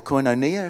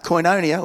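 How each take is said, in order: First: Posh, refined "koinonia"; really posh. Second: Said in the usual way. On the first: Shown as a demonstration. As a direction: say "koinonia" as the posh set would. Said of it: "say it really posh".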